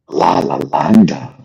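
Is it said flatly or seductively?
seductively. It is said passionately and seductively.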